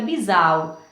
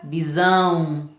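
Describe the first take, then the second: First: The stressed vowel is oral, not nasal. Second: The stressed vowel is nasal. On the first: "o som não sai pelo nariz" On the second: "o som aqui ficou nasalizado também"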